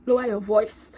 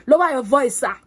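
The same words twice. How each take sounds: First: Said in the usual way. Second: Louder, firm demand to the instructor; firm telling-off. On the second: Pretend. Firm demand to a shouting instructor. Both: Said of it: "shout at me".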